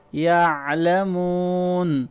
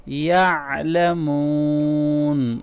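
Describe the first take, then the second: First: یعلمون with the ain from the middle of the throat and a long madd; throaty ain, long madd. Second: یعلمون with the ain from the middle of the throat and a drawn-out oon; throaty ain, long madd. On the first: Teacher demonstrating the ain sound to students, slow recitation. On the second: Teacher repeating after explaining the ain, slow recitation. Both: Shown as a demonstration. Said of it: "گلے کے درمیان سے ادا کریں گے".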